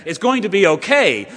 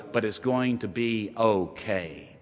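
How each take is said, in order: First: Louder and higher, triumphant; preacher ringing out good news; rousing proclamation. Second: Soft, slow and reassuring; quietly reassuring doctor with good news. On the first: Acted. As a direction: proclaim it like dawning light. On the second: Retold or imitated. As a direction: ease the family's fear gently.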